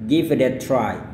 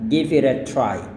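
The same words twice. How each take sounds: No difference in how they are said.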